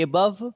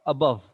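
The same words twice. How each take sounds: First: AY-bove, first syllable given full weight; wrong full first vowel. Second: ABOVE, weak first vowel and strong second syllable; stress on bove. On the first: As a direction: say above with a long A at the start. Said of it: "what do you say?". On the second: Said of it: "above पे ज़्यादा stress है". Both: Shown as a demonstration.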